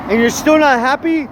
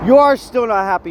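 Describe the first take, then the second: First: High, rising incredulous challenge. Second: "you are" hit high, then falling; stress on ARE. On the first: Scolding a bitter man who has everything, incredulous. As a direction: lift it up into a disbelieving question. Rant's punchline, first take questioning. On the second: Scolding a bitter man who has everything, "are" stressed accusingly. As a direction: punch "you are" as a verdict, dropping away after. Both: Acted.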